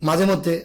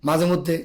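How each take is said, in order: The two takes are said the same way.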